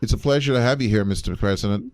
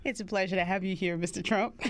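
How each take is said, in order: First: Quick Midwest-accented line, a touch faster; Midwest accent demo. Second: Put-on Southern accent. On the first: Shown as a demonstration. Showing his partner the Midwest accent, quick and light. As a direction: show how a Midwest voter says it. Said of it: "let me give you the accent". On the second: Voter Rogan greeting Trump in a soft Southern accent. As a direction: play a Georgia voter in a gentle Southern accent. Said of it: "I'm still doing the Southern accent".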